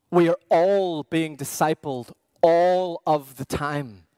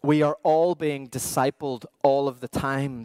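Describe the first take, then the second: First: We hit first and firm; repeated line led by a firm we; stress on we. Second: All leaned on, level and even; statement with weight on all; stress on all. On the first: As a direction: punch the word we to open. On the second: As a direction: press the word all each time it comes. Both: Shown as a demonstration.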